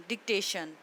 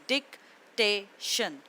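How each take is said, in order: First: Said in the usual way. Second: डिक्टेशन slowly as डिक, टे, शन; three separate beats with pauses, डिक-टे-शन; split into syllables. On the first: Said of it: "डिक्टेशन को three syllables में divide". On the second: Shown as a demonstration. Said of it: "three syllables में divide करूँगी".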